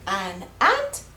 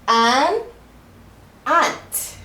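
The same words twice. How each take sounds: First: The two words run together like one word. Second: The two words are said separately and clearly.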